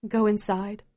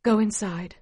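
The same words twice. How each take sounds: First: Tired. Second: Weary, falling Go inside; tired voice. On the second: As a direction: say Go inside with drained exhaustion. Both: A narrator's reading. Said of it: "Ma tells us in a tired voice".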